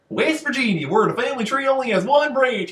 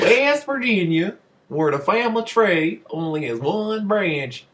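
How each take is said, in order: First: The line is spoken very quickly. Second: The line is spoken at a slower pace. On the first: "that was really fast" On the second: "You want to say that normal"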